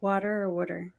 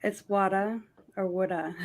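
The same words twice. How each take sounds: First: "water" then "water" said "wooder" with a Massachusetts vowel; Massachusetts accent. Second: "woulda" for water in a Massachusetts accent, r dropped. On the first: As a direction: contrast plain "water" with Boston "wooder". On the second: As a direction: say "woulda" the Boston way. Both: Shown as a demonstration. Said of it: "That's how you'd say it in Massachusetts".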